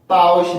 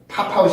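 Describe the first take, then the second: First: The linked consonant is tense. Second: The linked consonant is aspirated. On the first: The speaker calls it right. "뭔가 강세 있는 뭔가 붙기 때문에 바웃으로 소리가 변하게" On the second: The speaker calls it wrong. "팝아웃이 아니고"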